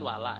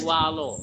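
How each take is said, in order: First: The vowel after the L is thin and light. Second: The vowel after the L is thick and heavy. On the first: The speaker calls it right. "harusnya kan wala" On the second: The speaker calls it wrong. "Tapi kadang menjadi walo"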